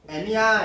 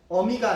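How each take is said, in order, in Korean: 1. 첫 모음은 'ae'예요. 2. 첫 모음은 'eo'예요. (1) "애로 되는 거고" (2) "어가 아니라"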